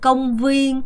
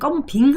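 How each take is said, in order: First: The second syllable sounds like 'vien'. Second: The second syllable sounds like 'bing'. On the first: The speaker calls it right. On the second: The speaker calls it wrong.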